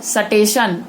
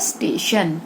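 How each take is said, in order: First: A vowel is inserted between s and t. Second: The s and t form a cluster. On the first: The speaker calls it wrong. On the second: The speaker calls it right.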